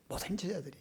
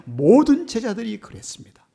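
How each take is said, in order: First: Much softer, hushed repeat; soft echo. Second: High, loud proclaiming; emphatic preaching. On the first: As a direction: let the words fall to a hush. (훨씬 작게 속삭이듯 되뇌며) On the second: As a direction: declare it to the whole church. (높고 크게 외치듯) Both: Real, not acted. Loud then soft repeat.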